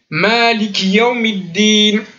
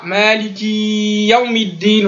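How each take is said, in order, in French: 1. Le i de ki est court, on enchaîne directement. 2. Le i de ki est allongé. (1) "Le ki, il suit avec Yawmiddin" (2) "c'est pas une prolongation sur l'accent i"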